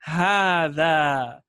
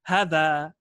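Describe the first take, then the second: First: The first vowel is long. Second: The first vowel is short. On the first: The speaker calls it right. "Rather, I'm saying هذا" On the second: The speaker calls it wrong. "I'm not saying هذا هذا"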